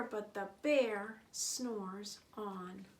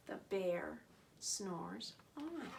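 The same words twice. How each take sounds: First: Said in the usual way. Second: Soft, slow "snores on"; hushed slow refrain. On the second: A narrator's reading. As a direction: let "on" fall away sleepily. Refrain, sleeping bear.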